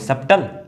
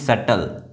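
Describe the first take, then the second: First: The b sound is pronounced before the t. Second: The b sound is silent before the t. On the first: The speaker calls it wrong. "No" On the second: The speaker calls it right. "यहाँ पर जो बी है वो silent है"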